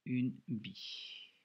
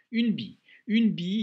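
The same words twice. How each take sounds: First: Each sound drawn out slowly as it is written; dragged-out une bille; slow dictation. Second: Announcing the word. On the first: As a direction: spell it out slowly while writing. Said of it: "je me corrige tout de suite". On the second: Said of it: "il y a une petite difficulté". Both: Shown as a demonstration.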